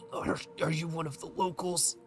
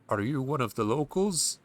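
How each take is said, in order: First: It sounds weak and injured, like someone dying. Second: It sounds like a plain, uninjured game character.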